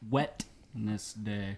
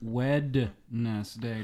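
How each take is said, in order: First: The first syllable ends with a t sound. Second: The first syllable ends with a d sound. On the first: The speaker calls it wrong. "not Wetness Day" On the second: The speaker calls it right. "It's Wedness Day"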